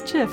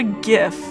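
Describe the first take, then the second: First: The word begins with a soft J-like sound. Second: The word begins with a hard G sound. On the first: The speaker calls it right. "Like the hard G versus a soft G" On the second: The speaker calls it wrong. "Gif just sounds so, like, unpleasant somehow"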